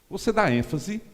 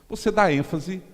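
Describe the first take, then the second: The two takes are said the same way.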